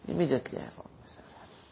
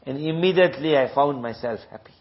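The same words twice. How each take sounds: First: A soft breathy whisper, quick. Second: Said in the usual way. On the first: Shown as a demonstration. Preacher echoes the line to the congregation in a whisper. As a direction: hush it right down, faster.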